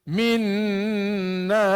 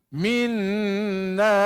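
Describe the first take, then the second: The two takes are said the same way.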